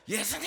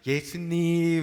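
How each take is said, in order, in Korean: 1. 거칠고 걸걸한 목소리로 말합니다. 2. 다정하고 부드러운 목소리로 말합니다. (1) "걸걸한 목소리로 예수님 이렇게 들릴 정도로" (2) "이렇게 예쁘게"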